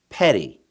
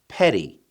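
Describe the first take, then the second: No difference in how they are said.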